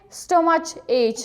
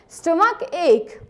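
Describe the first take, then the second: First: The 'ch' letters sound like 'ch' in church. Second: The 'ch' letters sound like a 'k'. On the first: The speaker calls it wrong. "You needn't say stomach ache, right? It's incorrect" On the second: The speaker calls it right. "C H and C H are pronounced like K. You have to say stomach ache"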